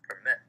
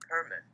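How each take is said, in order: First: The stress is on the second syllable. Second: The stress is on the first syllable.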